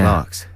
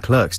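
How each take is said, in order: First: It is said with a British pronunciation. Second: It is said with an American pronunciation. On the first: "We say" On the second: "the Americans say Clerks"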